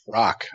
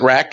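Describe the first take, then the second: First: The vowel is the open o of rock. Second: The vowel is the short a of rack. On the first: The speaker calls it right. "It's actually rock" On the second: The speaker calls it wrong. "Is that how you guys pronounce that?"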